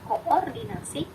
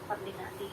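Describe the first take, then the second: First: The double o is said as two vowels. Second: The double o is said as one vowel. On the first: This is how the word is written. "tertulisnya adalah" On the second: This is how people usually read it. "tapi tetap dibacanya"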